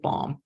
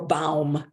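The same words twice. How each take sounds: First: The name is said in an American way. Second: The name is said in a German way.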